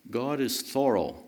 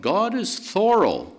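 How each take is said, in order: First: Said in the usual way. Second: Thorough stressed, higher and louder; emphatic stress. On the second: Shown as a demonstration. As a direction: lean hard on thorough as a preacher.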